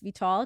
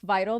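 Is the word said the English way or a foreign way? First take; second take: foreign; English. First: It sounds unlike the English word, non-English. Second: It sounds like the English word vital. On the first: "but it's Vital" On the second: "So like vital"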